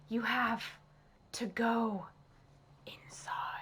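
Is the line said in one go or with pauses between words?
pauses. It is said with pauses between the words. The speaker calls it right. "with each pause"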